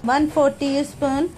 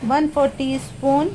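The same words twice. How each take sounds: The two takes are said the same way.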